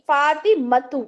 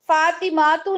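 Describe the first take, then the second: First: The vowel after the m is short. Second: The vowel after the m is long. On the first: The speaker calls it right. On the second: The speaker calls it wrong.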